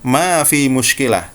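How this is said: The second word is a bare 'fi'. This is how Saudis say it. "Orang Saudi akan mengatakan ma fi muskilah"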